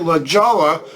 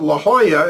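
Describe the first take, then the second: First: It is pronounced exactly the way it's spelled. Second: It is not pronounced the way it's spelled. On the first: The speaker calls it wrong. "because that's how it's spelled" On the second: The speaker calls it right. "the town called La Jolla"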